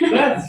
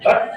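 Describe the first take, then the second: First: The final t is released with an audible hiss. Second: The final t is closed tightly with no release. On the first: The speaker calls it right. "bat tetap berdesis" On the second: The speaker calls it wrong. "bukan bat rapat"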